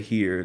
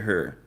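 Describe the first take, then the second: First: It is said with the standard vowel. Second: It is said with a Dallas-style vowel. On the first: "they don't say here" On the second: "they say her"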